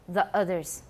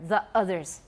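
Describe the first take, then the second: First: A glottal stop separates the two words. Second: The same.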